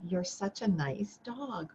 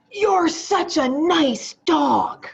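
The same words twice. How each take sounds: First: Said in the usual way. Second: High, slow, sing-song praise for a good dog; sweet praise. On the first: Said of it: "But did you feel that". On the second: Retold or imitated. Teacher showing the class a sweet tone. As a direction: coo it like praising a pet. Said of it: "what were my words".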